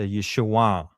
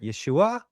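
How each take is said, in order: First: It is said nasally, with the pitch falling. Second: It is said higher, without a nasal sound. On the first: The speaker calls it right. "a nasal back sound, and it's a downward" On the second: The speaker calls it wrong. "or they might even go higher"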